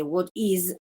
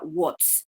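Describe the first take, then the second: First: "what is" as two words, voiced z ending "is"; full uncontracted form. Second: "what's" as one syllable ending in voiceless ts; contracted form. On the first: Teacher showing the starting form before assimilation, "what is" in full. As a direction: keep IS whole in "what is". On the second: Teacher showing the assimilated result, "what's" with voiceless s. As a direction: squeeze "what is" into "what's". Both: Shown as a demonstration. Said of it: "voy a pasar de".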